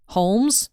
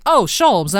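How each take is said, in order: First: Holmes, the plain real name; wrong name Holmes. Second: Sholmes with sh, like Sherlock; Sholmes correction. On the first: Explaining his naming mix-up, says Holmes. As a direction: say Holmes by mistake, the way the real detective is called. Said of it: "I accidentally say". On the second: Explaining the game's name, corrects to Sholmes. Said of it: "No, Sholmes is the right one". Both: Shown as a demonstration.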